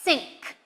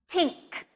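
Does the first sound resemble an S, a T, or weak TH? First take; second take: S; T. First: The first sound is said like an S. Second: The first sound is said like a T. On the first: "you might be tempted to say an S sound" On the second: "You might also be tempted to say just a T sound"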